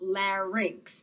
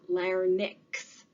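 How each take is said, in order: First: It is said without an extra n sound. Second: It is said with an extra n sound. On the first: The speaker calls it right. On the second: The speaker calls it wrong. "not larynx"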